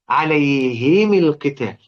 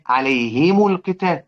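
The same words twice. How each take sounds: First: The mim is followed by an i vowel. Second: The mim is followed by a u vowel. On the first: "كده هو يكسر الاثنين" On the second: "بنقرأ احنا بنقول ايه؟"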